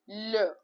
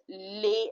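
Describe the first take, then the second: First: The vowel is a short neutral uh. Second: The vowel sounds like ay in lay. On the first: The speaker calls it right. "Pronounce it as L" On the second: The speaker calls it wrong. "please do not pronounce it as lay"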